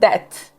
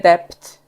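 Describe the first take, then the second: First: The word is said without a b sound. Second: The word is said with a b or p sound. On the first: The speaker calls it right. "to jest that" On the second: The speaker calls it wrong. "nie dept"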